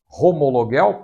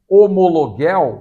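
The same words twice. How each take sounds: First: The word starts with a breathy h sound. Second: The word starts without a breathy h sound.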